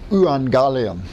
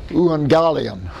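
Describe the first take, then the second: First: The word begins with a combined eu sound. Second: The same.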